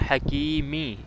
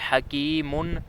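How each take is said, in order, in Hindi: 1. शब्द का अंत -i की ध्वनि से होता है। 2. शब्द का अंत -un की ध्वनि से होता है। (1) "हकीमी ज़ेर है मीम के नीचे" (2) "दो पेश हैं"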